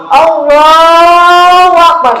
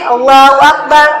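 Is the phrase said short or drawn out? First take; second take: drawn out; short. First: The phrase is drawn out and long. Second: The phrase is said short and quick.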